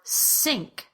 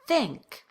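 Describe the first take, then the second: First: The word begins with an S sound. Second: The word begins with a voiceless TH sound. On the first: The speaker calls it wrong. "substitute a t or a s, that's a T or an S, for a voiceless T H" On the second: The speaker calls it right. "voiceless T H"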